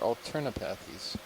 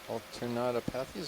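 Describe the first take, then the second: First: No 'to' syllable follows 'alterna'. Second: An extra 'to' syllable follows 'alterna'. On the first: The speaker calls it right. "Alternapathies, okay" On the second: The speaker calls it wrong. "Been pronouncing that wrong for a while"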